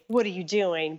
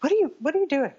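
First: Easygoing, unraised question; calmer mild boss. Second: Higher, louder mock scolding; retold angry boss. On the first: Retold or imitated. Photographer now gently questioning his assistant, calm. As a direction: ask it lightly, half laughing it off. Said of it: "calming down". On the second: Photographer scolding assistant over a mistake, mock angry and higher. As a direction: replay the boss snapping at his assistant. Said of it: "ripped me a new one".

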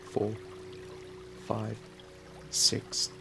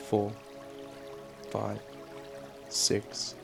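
Both takes have the same delivery.

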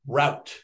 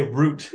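First: "route" with an OW vowel; rout pronunciation. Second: "root" rhyming with "boot"; root pronunciation. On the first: Guest quizzing host on the word, "route" as rowt. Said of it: "How do you say route?". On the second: Guest joking about how they say it, "root" with long OO. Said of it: "No, we say root". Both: Shown as a demonstration.

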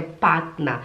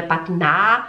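First: Partner as "patna" with a short falling end; low-pitched model of partner, unstressed -NA; light final A. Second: Partner with an overdone, rising final A; wrong heavy A. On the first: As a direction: let partner drop onto a light A. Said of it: "é um A". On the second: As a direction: stretch and lift the last syllable of partner, "patnaa". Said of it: "Não é partner". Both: Shown as a demonstration.

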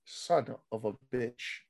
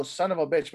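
First: "Son of a bitch" said low, slow and soft, rising at the end; a slow, quiet imitation of Cesaro saying "Son of a bitch"; Cesaro's drawn-out delivery. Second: Said in the usual way. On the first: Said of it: "That's how he said it". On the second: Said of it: "usually you go".

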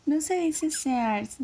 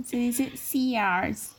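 First: SEARS said the wrong way, as two slow, higher syllables; drawn-out fresa girl rejecting "Sears"; slow, prissy setup naming the wrong "Sears"; fresa correction. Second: SEARS stretched very slowly in affected English; very drawn-out, prissy "Sears"; fresa pronunciation. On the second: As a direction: fresa girl savoring "Sears" as the correct way. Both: Retold or imitated. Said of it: "la morra que es bien fresa y que dice".

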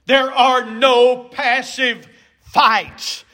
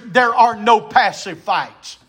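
First: Slow, "no passive fights" word by word; emphatic repeat. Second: Said in the usual way. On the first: Shown as a demonstration. Preacher repeating his point to the church, slow stress on "no passive fights". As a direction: hammer "no", "passive" and "fights" separately.

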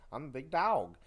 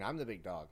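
First: Louder, higher, with "Dog" said as "dowg"; altered "Dog". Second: Said in the usual way. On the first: Acted. Copycat wrestler insists his name differs, "Dog" loudly said as "dowg". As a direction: punch out "Dog" with an "ow" vowel. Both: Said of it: "No, it's different".

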